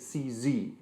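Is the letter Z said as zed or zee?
zee. Z is said as zee, American style.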